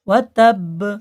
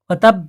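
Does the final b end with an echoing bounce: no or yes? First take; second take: yes; no. First: The final b ends with a short echoing bounce. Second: The final b stops flat without a bounce. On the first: The speaker calls it right. "ওয়া তাব এটা কলকলা কলকলা করে পড়তে হবে" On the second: The speaker calls it wrong. "ওয়া তাব বলবেন না"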